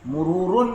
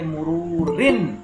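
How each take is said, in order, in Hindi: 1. शब्द 'un' की आवाज़ से खत्म होता है। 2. शब्द 'in' की आवाज़ से खत्म होता है। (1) "मुरूरुन नहीं कहेंगे" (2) "जेर लगाएंगे"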